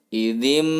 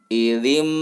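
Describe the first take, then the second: No difference in how they are said.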